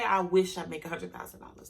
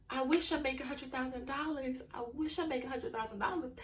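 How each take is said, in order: First: Said in the usual way. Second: Soft, wistful, half-hearted wishing; mock wishful whining. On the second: Shown as a demonstration. To her followers, mocking a soft wishful sigh. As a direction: sigh it out like a hopeless daydream. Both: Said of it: "Don't wake up and be like".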